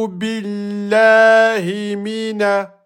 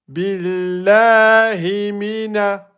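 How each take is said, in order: The two takes are said the same way.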